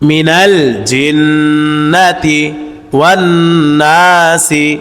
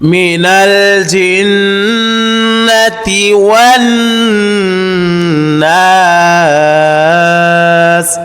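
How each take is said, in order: First: The last word ends with a short i vowel. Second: The last word ends on the s consonant. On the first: The reading continues without stopping. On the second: The reading stops at the end of the verse.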